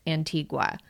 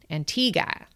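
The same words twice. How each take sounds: First: The name is said in a bookish, textbook way. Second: The name is said the way islanders say it. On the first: "the English teacher in me wants to pronounce it Antigua" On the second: "they pronounce it Antigua"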